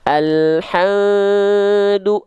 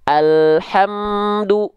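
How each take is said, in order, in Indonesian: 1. Bunyi m samar dan tidak terucap dengan jelas. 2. Bunyi m jelas, dengan bibir tertutup rapat. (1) "Kalau samar begini" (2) "emnya jelas kan nggak samar"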